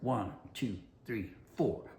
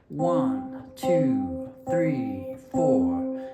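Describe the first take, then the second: First: The counting is quick and hurried. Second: The counting is at a slower, steady pace.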